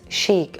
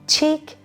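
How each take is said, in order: First: It sounds like sheek, with a soft start. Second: It sounds like the word cheek. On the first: The speaker calls it right. "the pronunciation is chic" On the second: The speaker calls it wrong. "don't mispronounce it like cheek"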